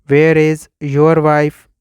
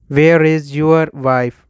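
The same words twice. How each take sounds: The two takes are said the same way.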